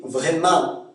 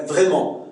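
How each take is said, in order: First: "Vraiment" with a fronted final vowel, vrai-man; Québécois nasal vowel. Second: Said in the usual way. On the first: Shown as a demonstration. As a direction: end "Vraiment" on an open nasal "an". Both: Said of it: "C'est le on".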